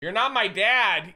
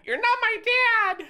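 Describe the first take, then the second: First: Said in the usual way. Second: Put-on much higher, slow childish voice; bratty kid voice talking back; squeaky mock whine. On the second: Shown as a demonstration. Repeat in squeaky voice.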